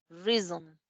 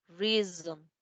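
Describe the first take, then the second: The two takes are said the same way.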